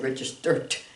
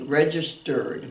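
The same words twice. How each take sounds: First: The word ends with a T sound. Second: The word ends with a D sound. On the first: The speaker calls it wrong. "We don't say registered. No, we don't make it a T for a voice sound" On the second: The speaker calls it right. "make it sound like a D"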